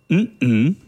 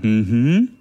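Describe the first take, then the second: First: The hum is broken by a glottal stop. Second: The hum flows smoothly without a glottal stop. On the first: It expresses disagreement. "um es zu verneinen" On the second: It expresses agreement. "Man kann zustimmen sagen"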